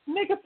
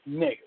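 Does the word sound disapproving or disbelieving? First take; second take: disbelieving; disapproving. First: The word is said with smirking disbelief. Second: The word is said sternly and disapprovingly. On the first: The speaker does not believe what was said. "an expression of disbelief, spiked with a smirk" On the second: The speaker disapproves of something. "a sign of disapproval, said sternly with squinting eyes"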